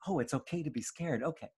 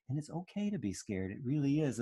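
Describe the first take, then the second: First: Put-on quick, soft, relieved child's voice; relieved little child. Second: Soft, tender reassurance; comforting mother. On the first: Calmed toddler repeating mommy's words, quick and relieved. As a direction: repeat it like a toddler who just got it. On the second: Retold or imitated. Mother holding her scared baby, softly reassuring. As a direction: gently tell the child fear is fine.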